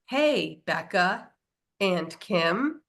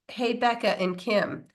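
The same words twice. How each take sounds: First: The phrase has odd, unnatural pauses. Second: The phrase flows smoothly without odd pauses. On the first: It sounds like a computer made it. "like this like weird kind of pausey thing" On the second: This is how the speaker naturally said it. "I said"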